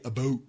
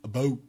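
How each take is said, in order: The two takes are said the same way.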